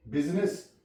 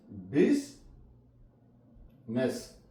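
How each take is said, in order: First: Said in the usual way. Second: बिजनेस split slowly as "biz ... ness"; two syllables of बिजनेस with a long pause between; silent I. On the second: Shown as a demonstration. Teacher breaking up business for learners, "biz ... ness". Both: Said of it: "यहाँ पे आई silent है".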